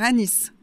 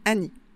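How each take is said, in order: First: The final S is pronounced. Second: The final S is silent. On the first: The speaker calls it right. "je préfère dire Anis" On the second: The speaker calls it wrong. "certaines personnes disent Annie"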